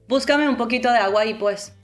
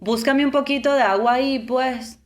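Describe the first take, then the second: First: It is said in a plain, neutral tone. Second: It is said in a soft, asking tone. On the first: "Normal tone" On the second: "Favor tone"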